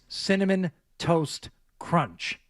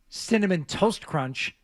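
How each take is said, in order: First: Each word is said separately, with breaks. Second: The words are run together without breaks. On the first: The speaker calls it right. "You have to separate the Cinnamon Toast Crunch" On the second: The speaker calls it wrong. "It's not"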